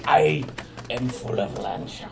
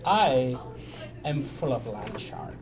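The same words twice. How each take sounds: First: More gravelly take on a pirate. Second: Slow, lightly voiced pirate; a hint of pirate, drawn out. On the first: Shown as a demonstration. Player showing friends how his pirate goes, gravelly pirate. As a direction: growl it lightly like a pirate. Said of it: "it's more gravelly". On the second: Player confessing he is full of land shark, lightly voiced pirate. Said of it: "Now he sounds like a pirate".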